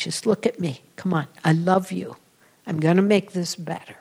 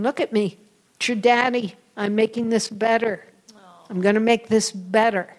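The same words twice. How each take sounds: First: Tender remembered voice. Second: Father's reassurance. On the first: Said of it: "I remember that image". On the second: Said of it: "He kept saying". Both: Retold or imitated.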